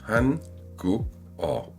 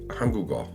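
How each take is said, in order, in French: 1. Les trois syllabes sont prononcées clairement séparées. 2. Le K final passe dans la syllabe suivante. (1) "lettre par lettre, Trois syllabes bien séparées" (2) "un coréen natif dit"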